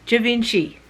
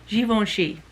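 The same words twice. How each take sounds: First: It is said the broad Australian way. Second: It is said the European, French-like way.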